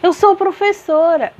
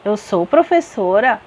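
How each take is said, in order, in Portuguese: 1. É dita com forte emoção, como uma exclamação. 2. É dita com uma entoação ascendente, de pergunta. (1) "eu exclamei" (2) "eu perguntei"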